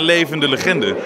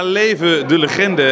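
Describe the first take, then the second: First: Leven and de run together into one word. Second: Leven and de are said as separate words. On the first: A living legend. "En dat verbast het al snel naar levende legende" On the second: Long live the legend. "Met 2 woorden of met 3. ... leven de legende"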